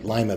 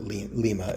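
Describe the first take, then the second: First: Pronounced like the first word of 'lima bean'. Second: Pronounced the way a Brazilian would say it. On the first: "Lima bean" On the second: "She probably pronounces it Lima if she's Brazilian"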